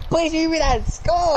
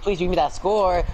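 First: Higher pleading repeat. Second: Said in the usual way. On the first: Real, not acted. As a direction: beg the game for it. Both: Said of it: "repeated pleading".

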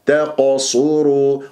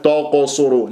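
First: Slow تقصروا opening on a thin ت; light ta. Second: تقصروا with ت thickened toward ط; wrongly heavy ta. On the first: Teacher corrects the mistake, slow light-ta تقصروا. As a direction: keep ت thin before the heavy ق in تقصروا. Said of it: "لا، تاء". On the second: Teacher warns by imitation, heavy ta. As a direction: darken the opening ت of تقصروا. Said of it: "ولا تفخم التاء". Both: Shown as a demonstration.

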